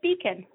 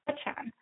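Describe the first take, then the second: First: The surname is said with its Americanized pronunciation. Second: The surname is said with its original Czech pronunciation. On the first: This is how the family says the name after emigrating. "I pronounce it Beacon, like a lighthouse" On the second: This is how the family name was originally said. "would have been pronounced Bechan"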